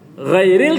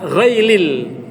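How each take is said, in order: First: The middle consonant is a clear r sound. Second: The middle consonant is an l sound. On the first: The speaker calls it right. "ro yang diganti ghain atau diganti lam" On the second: The speaker calls it wrong. "ro yang diganti ghain atau diganti lam"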